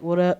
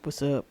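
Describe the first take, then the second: First: It is said in a normal voice. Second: It is said in a very deep voice.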